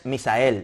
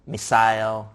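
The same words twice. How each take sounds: First: The name is pronounced with Spanish sounds. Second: The name is pronounced with English sounds. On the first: "In Spanish" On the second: "if you said it uh, in English"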